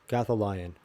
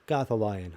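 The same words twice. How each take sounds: Both takes have the same delivery.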